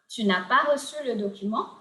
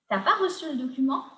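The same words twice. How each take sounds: First: The full form with ne is said. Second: The ne is dropped and tu is shortened.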